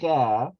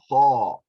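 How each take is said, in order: First: The syllable ends in a light ah vowel. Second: The syllable ends in a heavy aw vowel. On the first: The speaker calls it wrong. "we don't say cha" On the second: The speaker calls it right. "we say thaw"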